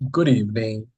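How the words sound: It is said in a sad tone.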